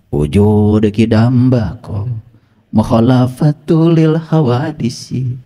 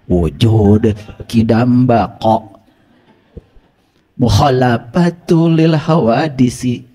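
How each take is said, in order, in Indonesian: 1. Konsonannya diucapkan longgar dan kurang tepat. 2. Konsonannya diucapkan dengan hati-hati dan tepat.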